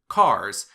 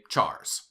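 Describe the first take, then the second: First: The word begins with a k sound. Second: The word begins with a ch sound. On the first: "You will hear some people pronounce the primitive data type for characters as cars" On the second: "and others will say chars"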